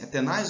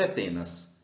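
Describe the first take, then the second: First: "tenaz" with the weight on "naz"; stress on last syllable. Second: "tenas" with the weight on "te"; stress on first syllable. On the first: Teacher voices a student's doubt, "tenaz" stressed at the end. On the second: Teacher voices a student's doubt, "tenas" stressed at the start. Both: Shown as a demonstration. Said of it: "o aluno fala assim".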